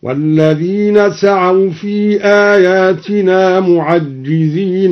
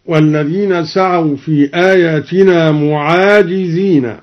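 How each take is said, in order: First: Slow chant, معجزين as "mu'ajjizīna"; recitation with doubled jim. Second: Said in the usual way. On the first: Shown as a demonstration. Teacher demonstrating al-Duri's reading, chant with doubled jim in معجزين. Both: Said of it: "قرأ الدوري بحذف الألف وتشديد الجيم".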